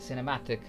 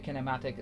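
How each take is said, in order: First: The word begins with an S sound. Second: The word begins with a K sound. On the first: The speaker calls it right. "It's an S sound" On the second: The speaker calls it wrong. "I mispronounced it earlier"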